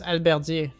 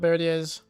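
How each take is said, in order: First: The word has a French-style pronunciation. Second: The word has an English-style pronunciation. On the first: The speaker calls it right. "It's French" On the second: The speaker calls it wrong. "I don't know why I said it with an English accent"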